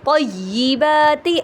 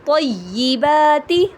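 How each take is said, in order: Both takes have the same delivery.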